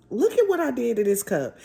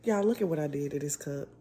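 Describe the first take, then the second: First: Louder, higher, stressing "at"; louder, higher repeat. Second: Said in the usual way. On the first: Real, not acted.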